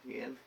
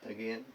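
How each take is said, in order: The two takes are said the same way.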